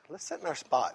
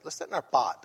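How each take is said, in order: First: The last word starts with an s sound. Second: The last word has no s sound. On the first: This is the adult form of the word. "She don't say spot" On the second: This is how a small child says it. "She say, let's sit in our pot"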